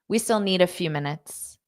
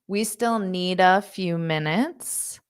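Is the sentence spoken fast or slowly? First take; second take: fast; slowly. First: The sentence is spoken fast. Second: The sentence is spoken slowly. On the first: "Now I'll say it fast" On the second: "so I'll say it slowly"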